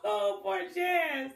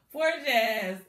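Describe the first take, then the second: First: Slow, high, laughing oh poor Jazz; laughing pity. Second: Said in the usual way. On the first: Real, not acted. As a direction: chuckle the pity out.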